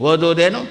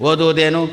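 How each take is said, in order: Both takes have the same delivery.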